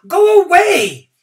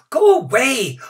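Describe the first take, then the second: First: Louder shout. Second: Shouting. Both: A narrator's reading. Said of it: "Many shouted at the old man".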